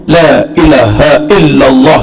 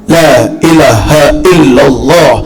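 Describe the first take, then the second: The two takes are said the same way.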